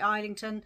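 The name is said the American way. "I hear the Americans say Islington"

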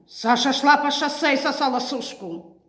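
It is said in an aggressive, hostile tone. "Агрессивно"

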